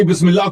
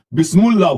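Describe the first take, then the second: First: Said in the usual way. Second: بسم اللہ mispronounced as bismul-lah; wrong vowel. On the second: Shown as a demonstration. (بسم اللہ کو غلط طور پر "بِسمُلّا" پڑھنا) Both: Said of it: "آپ نے غلط پڑھی بسم اللہ".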